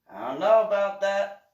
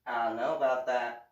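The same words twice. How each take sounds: First: Louder and higher dubious I don't know about that; skeptical retort. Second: Said in the usual way. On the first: Retold or imitated. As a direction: sound openly doubtful. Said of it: "it was just one of those". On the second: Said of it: "one of those".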